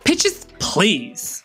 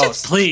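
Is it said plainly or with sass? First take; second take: sass; plainly. First: It is said in a sassy, flamboyant way. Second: It is said in a plain, neutral way.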